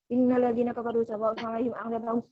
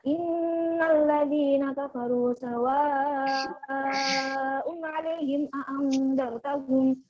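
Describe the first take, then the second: First: It is read hurriedly, clipping the long vowels. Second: It is read briskly, holding the long vowels. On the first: The speaker calls it wrong. "Jangan cepat-cepat" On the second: The speaker calls it right. "itu agak agak cepat"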